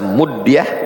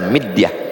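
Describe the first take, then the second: First: The first vowel is an u sound. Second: The first vowel is an i sound. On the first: "mimnya baris dhammah" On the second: "bisa juga dibaca mi"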